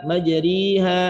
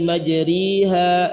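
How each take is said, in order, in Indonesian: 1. Vokal setelah r adalah i penuh. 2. Vokal setelah r adalah i penuh.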